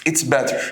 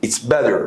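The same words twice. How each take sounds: First: "better" with a crisp T sound in the middle; hard T pronunciation. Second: "better" pronounced "bedder". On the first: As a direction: say "better" with a true T, not a D. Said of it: "النطق الصح بتاعها مش better". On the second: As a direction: say the double T in "better" as a D. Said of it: "ال double T بتنطق D". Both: Shown as a demonstration.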